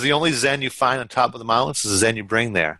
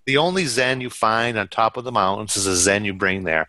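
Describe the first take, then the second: First: It is said at normal speed. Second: It is said more slowly.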